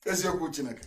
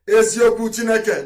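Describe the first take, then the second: First: Said in the usual way. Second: Eziokwu Chineke cried out high and loud; loud oath. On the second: Shown as a demonstration. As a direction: proclaim Eziokwu Chineke like a vow. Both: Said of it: "repeated as emphatic oath".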